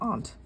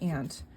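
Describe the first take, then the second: First: Aunt is said in a Boston accent. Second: Aunt is said in a Buffalo accent. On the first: This is how locals in the Boston area say it. "everyone here in the Boston area says aunt, which I suppose is the proper way" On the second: The speaker is from Buffalo. "we say aunt because we are from Buffalo originally"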